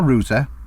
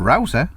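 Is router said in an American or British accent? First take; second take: British; American. First: It is said in a British accent. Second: It is said in an American accent.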